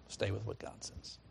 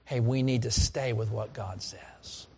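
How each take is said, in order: First: Soft echo. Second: Said in the usual way. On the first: Acted. Preacher echoes his own line.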